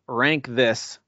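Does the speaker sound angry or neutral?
neutral. It is said in a plain, neutral tone. The speaker calls it wrong. "it's meant to sound aggressive, if it does"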